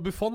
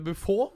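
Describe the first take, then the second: First: The name is said without a French pronunciation. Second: The name is said with a French pronunciation.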